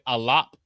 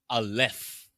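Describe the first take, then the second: First: The word ends with a p sound. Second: The word ends with an f sound. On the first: The speaker calls it right. "Instead of pronouncing it alap" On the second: The speaker calls it wrong. "with a F sound"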